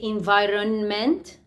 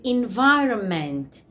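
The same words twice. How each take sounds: First: The middle N sound is pronounced. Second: The middle N sound is silent. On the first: The speaker calls it wrong. "we don't say environment" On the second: The speaker calls it right. "This N is silent"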